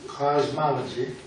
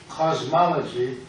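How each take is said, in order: Both takes have the same delivery.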